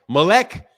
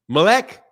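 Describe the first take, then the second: First: The second vowel sounds like 'eh'. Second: The same.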